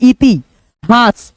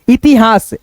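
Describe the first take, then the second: First: The word is split by a pause midway. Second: The word is said smoothly without pausing. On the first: "पहले मन में हम लोग उच्चारण कर लेते हैं" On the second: "जुड़ के क्रम में"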